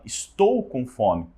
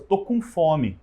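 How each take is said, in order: First: The first word is said in full, clearly articulated. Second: The first word is shortened to one syllable. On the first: The speaker calls it right. "mas o certo seria você falar" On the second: The speaker calls it wrong. "é muito comum, por exemplo, você falar assim"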